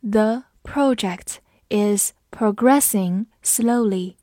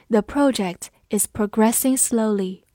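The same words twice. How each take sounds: First: Slow, word by word with gaps; slow reading. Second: Said in the usual way. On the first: Shown as a demonstration. Teacher reads the example slowly for students, slow reading. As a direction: read it slowly, every word separate. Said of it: "我们慢读一遍".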